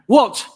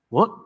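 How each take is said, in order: First: It is said in an angry way. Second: It is said in a surprised way.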